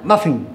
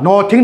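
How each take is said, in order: First: The first vowel sounds like 'uh'. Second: The first vowel sounds like 'oh'. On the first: The speaker calls it right. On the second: The speaker calls it wrong. "नोथिंग नहीं बोलना है"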